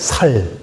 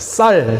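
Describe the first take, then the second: First: The first consonant is a plain s sound. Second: The first consonant is a tense s sound.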